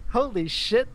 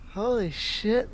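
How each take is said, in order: First: It is spoken plainly without a stutter or lisp. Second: It is spoken with a stutter and a lisp.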